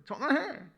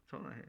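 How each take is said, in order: First: High, loud comic yell; acted divine shout. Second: Said in the usual way. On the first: God yelling at his children to call him, mock shout. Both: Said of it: "하나님이 소리 지르는".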